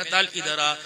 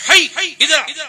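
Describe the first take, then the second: First: Loving call. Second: A sharp, higher, louder summons; angry call. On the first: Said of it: "تعال پیار کا لفظ ہے". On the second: Father angrily summoning a son who won't come, sharp and loud. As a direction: bark it like a fed-up father. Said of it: "یہ غصے کا لفظ ہے". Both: Shown as a demonstration.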